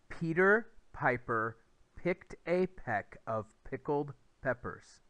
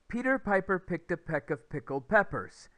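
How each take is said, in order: First: It is said at a slower pace. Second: It is said at the fastest pace.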